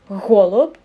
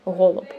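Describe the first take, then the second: First: The first sound is pushed out with effortful breath. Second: The first sound is said lightly without extra breath. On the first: "useful just to put an effort in it" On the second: "when you're good at it, you actually do not do that"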